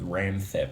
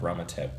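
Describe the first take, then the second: First: The name is read with an anglicized spelling pronunciation. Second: The name is said with its Thai pronunciation. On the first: The speaker calls it wrong. "the way that someone would read it if they don't know how to read Romanized Thai" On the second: The speaker calls it right. "which is what it should sound like"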